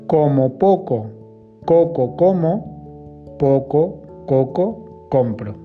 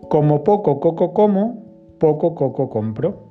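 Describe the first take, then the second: First: It is said slowly and carefully. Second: It is said at a normal, faster pace.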